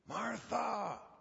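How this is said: The name is said in a pleading tone. The speaker is begging her to listen. "Was it pleading?"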